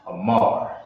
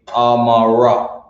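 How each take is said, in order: First: The word ends on the r sound. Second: The word ends with an extra a vowel. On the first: The speaker calls it right. "This word is Amar" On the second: The speaker calls it wrong. "You're not gonna say Amara. You drop the A"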